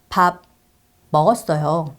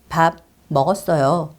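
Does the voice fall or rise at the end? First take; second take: fall; fall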